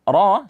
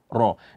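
First: The sound is pressed up with unrounded lips. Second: The lips are pushed forward, giving an o sound. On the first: The speaker calls it right. "Yang benarnya adalah ra, suara yang ditekan ke langit-langit atas" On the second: The speaker calls it wrong. "dia memoncongkan bibir sehingga muncul bunyi ro, ro. Dan itu salah"

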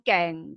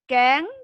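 First: The syllable is said with a low tone. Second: The syllable is said with a high tone. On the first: "เสียงเอก" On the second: "เสียงตรี"

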